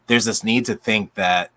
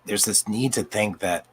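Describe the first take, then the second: First: Said in the usual way. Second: Real voice starting to give out; voice going out. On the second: Real, not acted. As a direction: speak as the voice begins to fail. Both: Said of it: "sorry, my voice is going out".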